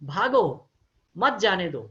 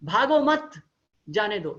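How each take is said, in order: First: There is a pause right after 'bhago'. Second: There is a pause right after 'mat'.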